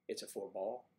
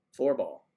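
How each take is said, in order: First: Said in the usual way. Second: "Four ball" said louder, "Four" hit hard with a falling tune; stress on four ball. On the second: Shown as a demonstration. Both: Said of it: "So it's a four ball, not a foursome".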